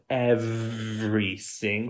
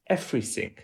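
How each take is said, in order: First: It has English v and th sounds. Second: The v sounds like f, th like s. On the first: "instead of everything" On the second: "we're going to do F"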